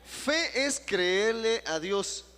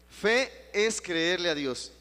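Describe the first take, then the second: First: Higher, loud, very slow; slower and higher proclamation. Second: Slow and loud, each word stretched; slow proclamation. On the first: Pastor asking the church to repeat it, higher and slow. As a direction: say it again, stretched out for all. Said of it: "Eso sí puede repetir". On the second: Pastor leading the congregation, slow and loud. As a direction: lead the congregation to repeat it. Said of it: "repite conmigo, hermano". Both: Shown as a demonstration.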